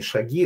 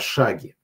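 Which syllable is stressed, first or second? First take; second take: second; first. First: The stress is on the second syllable. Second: The stress is on the first syllable. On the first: The speaker calls it wrong. "не шаги" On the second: The speaker calls it right. "Ударение на первом слове"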